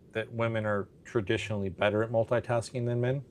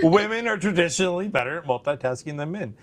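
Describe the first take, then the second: First: It is said at normal volume. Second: It is said louder.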